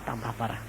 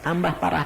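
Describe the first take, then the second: First: Much softer, trailing off; last echo, nearly gone; fading away. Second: Said in the usual way. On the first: Shown as a demonstration. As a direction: let it die away. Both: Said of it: "repeated, trailing off".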